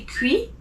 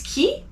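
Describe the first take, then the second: First: Qui with a w sound, kwee; wrong qui. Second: Qui said as plain kee, no w; right qui. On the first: Teacher showing the wrong qui. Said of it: "you don't say qui". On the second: Teacher giving the right qui. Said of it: "it's qui". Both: Shown as a demonstration.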